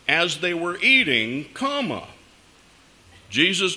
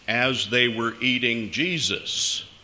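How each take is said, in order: First: There is a break after eating, before Jesus. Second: It runs on with no pause after eating.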